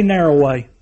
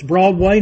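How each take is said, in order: First: "narrow way" dropped lower, falling and final; narrow way stressed. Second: "broad way" with a rising lift on "way"; broad way stressed. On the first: Preacher contrasting the two roads, low falling narrow way. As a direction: bring "narrow" down low and settle it. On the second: Preacher contrasting the two roads, rising on broad way. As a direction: lift "broad way" up at the end like an open question. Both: Shown as a demonstration. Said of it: "The Bible says there's two ways".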